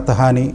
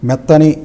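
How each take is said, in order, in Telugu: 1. ఈ పదంలో లోపల h శబ్దం అదనంగా ఉంది. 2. ఈ పదాన్ని h శబ్దం లేకుండా పలుకుతారు. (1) "మెత్తహాని అని లేదు" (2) "మెత్తని అనే పదం ఉండడానికి"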